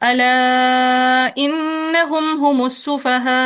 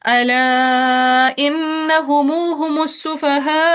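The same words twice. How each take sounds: First: The final 'm' of innahum is closed, with no vowel. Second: The final 'm' of innahum carries a long 'u' vowel. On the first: "तवसुत के साथ पहले अद में सिला" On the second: "फिर सिला"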